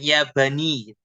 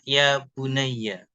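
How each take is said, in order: First: The last word ends without a final vowel. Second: The last word ends with a final 'a' vowel. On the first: "bisa dibaca sukun, dimatikan" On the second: "dihidupkan dengan di fathah"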